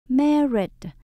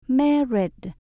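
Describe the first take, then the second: The two takes are said the same way.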